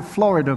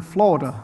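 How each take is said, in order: First: Said in the usual way. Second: Florida squeezed to two syllables, "Florda"; local pronunciation. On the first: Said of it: "They call it Florida". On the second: Shown as a demonstration. Visiting speaker mimics how people here say Florida, squeezed pronunciation. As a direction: say Florida the local way, middle vowel dropped. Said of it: "people here don't call it Florida".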